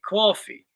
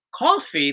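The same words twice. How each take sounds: First: Coffee with a rounded "cwaw" vowel, slow; regional "coffee". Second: Said in the usual way. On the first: Shown as a demonstration. Husband contrasting regional speech, coffee as "cwawfee". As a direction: draw coffee out as "CWAW-fee". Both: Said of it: "they say coffee".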